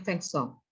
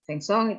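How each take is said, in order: First: Vincent said the French way, "veng-song"; nasal French vowels in Vincent, final t silent; pelafalan Prancis. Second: Vincent said the English way, "VIN-sent"; pelafalan Inggris. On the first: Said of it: "Kalau bahasa Prancisnya Vincent". (Vincent dilafalkan cara Prancis, "feng-song") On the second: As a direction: pronounce Vincent with a plain English "-sent" ending. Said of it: "kalau bahasa Inggrisnya Vincent". (Vincent dilafalkan cara Inggris, "vin-sen") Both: Shown as a demonstration.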